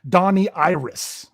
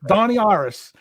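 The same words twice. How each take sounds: First: It is said in standard English. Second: It is said in a Pittsburgh Yinzer accent.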